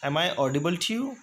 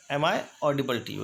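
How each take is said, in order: First: Very slow, careful question; slow model phrase. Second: Said in the usual way. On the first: Shown as a demonstration. Teacher first modeling the audibility question, slow. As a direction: draw the question out for learners. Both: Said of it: "next है".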